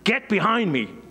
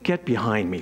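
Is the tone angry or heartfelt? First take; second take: angry; heartfelt. First: It is said in an angry, harsh tone. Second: It is said in a warm, heartfelt tone. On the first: The words are a rebuke made in anger. The speaker calls it wrong. "we often think Jesus was saying it in an angry tone" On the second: The words are a caring correction. The speaker calls it right. "I think he was rather like a more heartfelt kind of, you know, comment"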